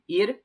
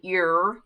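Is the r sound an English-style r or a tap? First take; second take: tap; English r. First: The r is a quick tongue tap. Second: The r is a drawn-out English-style r. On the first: The speaker calls it right. "It's almost more like a D" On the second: The speaker calls it wrong. "These R's are not er, so you don't say ir"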